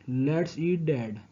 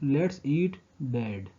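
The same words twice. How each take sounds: First: It is said with no pause before Dad. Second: It is said with a pause before Dad.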